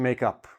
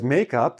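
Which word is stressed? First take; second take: up; make. First: The stress falls on the word up. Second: The stress falls on the word make. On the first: It means to make peace after a fight. "I'm putting the stress on the on the preposition" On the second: It is the stuff you put on your face. "I'm putting the stress more on the first syllable"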